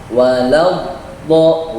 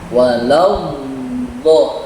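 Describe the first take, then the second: First: The phrase is said at normal speed. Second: The phrase is said slowly and drawn out.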